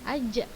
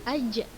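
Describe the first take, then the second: The two takes are said the same way.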